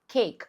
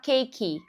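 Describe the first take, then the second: First: The word ends on the k, no vowel after. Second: A vowel sound is added after the final k. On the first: The speaker calls it right. "você vai falar só cake. O E, ele não é emitido aqui" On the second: The speaker calls it wrong. "Você não vai falar cake"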